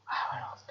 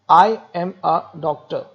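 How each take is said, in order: First: It is said softly on one low pitch. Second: It is said in a normal, varied voice.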